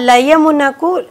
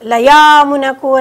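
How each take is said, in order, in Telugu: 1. y తర్వాత ఉన్న అచ్చు హ్రస్వం. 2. y తర్వాత ఉన్న అచ్చును దీర్ఘంగా సాగదీస్తారు.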